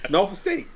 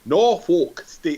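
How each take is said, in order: First: The sounds run together smoothly and loosely. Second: Each sound is pronounced separately and carefully. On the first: This is how locals say the name. The speaker calls it right. "Just let it slide off the tongue real easy" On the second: This is how outsiders say the name. The speaker calls it wrong. "would you stop saying it like that? That is not how you say it"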